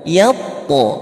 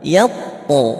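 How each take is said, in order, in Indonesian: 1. Huruf t di akhir dilepas dengan gema memantul. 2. Huruf t di akhir dilepas dengan gema memantul.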